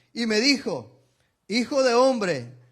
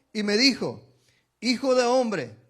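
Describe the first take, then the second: No difference in how they are said.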